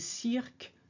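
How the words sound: It is said with a French vowel sound. The speaker calls it right. "in French it's E as in cirque"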